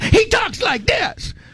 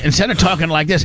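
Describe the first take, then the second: First: It is said forcefully with high energy. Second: It is said calmly with low energy.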